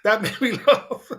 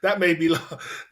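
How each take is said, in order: First: Laughing through the words. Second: Said in the usual way. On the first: Real, not acted. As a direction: laugh as you say it.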